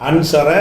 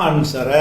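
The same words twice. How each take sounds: Both takes have the same delivery.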